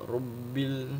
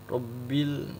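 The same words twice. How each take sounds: The two takes are said the same way.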